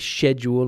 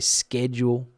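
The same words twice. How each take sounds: First: The word is pronounced in a British way. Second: The word is pronounced in a non-British way. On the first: This is how the speaker normally says it. "I would say schedule" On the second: This is how the speaker would not say it. "I wouldn't say schedule"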